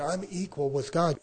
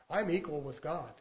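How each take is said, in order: First: Firmer, fuller-voiced claim on "I'm equal with God"; firm repetition. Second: Softer, understated claim; quiet statement. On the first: Preacher repeating his claim to objectors, firmly. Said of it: "I'll say it again". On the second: Acted. Preacher stating scripture to a wary listener, quietly.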